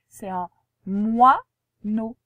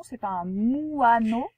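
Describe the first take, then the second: First: Moineau said mwa-no, slow and louder; correct pronunciation. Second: Moineau said mu-a-no, split and slow; wrong pronunciation. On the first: Teacher correcting the pupil, slow and loud moineau. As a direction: say moineau properly as mwa-no, slowly and firmly. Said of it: "c'est pas un moineau, c'est un moineau". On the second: Teacher warns pupil, slowly mispronouncing moineau. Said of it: "Alors attention, c'est pas un moineau". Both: Shown as a demonstration.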